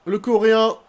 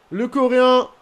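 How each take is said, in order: Both takes have the same delivery.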